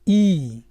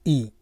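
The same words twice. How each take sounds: First: The vowel is drawn out long. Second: The vowel is said short. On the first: "खींच के बोलना पड़ता है" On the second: "और छोटी का लगा हो तो"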